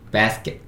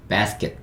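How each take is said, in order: Both takes have the same delivery.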